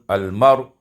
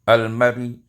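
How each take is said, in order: First: The word ends with no vowel at all. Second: The word ends with a faint, brief vowel. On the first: "ketika diwakafkan tentu sukun" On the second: "bisa dibaca dengan rum"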